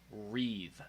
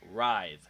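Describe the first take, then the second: First: The vowel sounds like 'ee'. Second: The vowel sounds like 'eye'. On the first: The speaker calls it wrong. "She says wreathe" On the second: The speaker calls it right. "the I sound"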